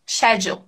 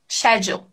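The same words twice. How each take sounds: First: It is said in a British accent. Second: It is said in a British accent.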